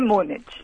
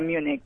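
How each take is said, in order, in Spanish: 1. El nombre tiene una pronunciación española. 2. El nombre tiene una pronunciación inglesa. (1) "en español Múnich" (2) "En inglés sería Múnich"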